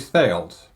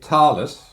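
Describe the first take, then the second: First: The name is pronounced in a British manner. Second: The name is pronounced in a Swiss manner. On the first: "the Brits would say Thales" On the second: "the Swiss would probably say Thales"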